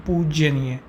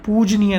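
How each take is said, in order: First: पूजनीय said as "poojeneey" with an extra e sound; wrong form said. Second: पूजनीय said as "poojneey", short and clean; the correct form पूजनीय, clearly said; correct spelling said. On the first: Teacher warns students against the wrong पूजनीय. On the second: Teacher gives students the correct पूजनीय form. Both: Shown as a demonstration. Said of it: "ना कि पूजनीय".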